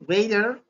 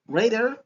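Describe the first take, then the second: First: It is said with an American accent. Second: The same.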